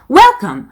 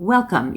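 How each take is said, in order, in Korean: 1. 첫 음절을 아주 세게 강조합니다. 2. 첫 음절을 살짝만 강조합니다. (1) "이 정도는 아니고" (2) "이 정도로 느낌만 실어주시면 됩니다"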